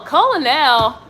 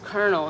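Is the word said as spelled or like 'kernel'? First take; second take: as spelled; like kernel. First: The word is said as it is spelled. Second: The word is said like 'kernel'. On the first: The speaker calls it wrong. "we kept mispronouncing colonel" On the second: The speaker calls it right. "Google will pronounce them for you"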